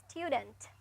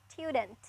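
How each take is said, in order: No difference in how they are said.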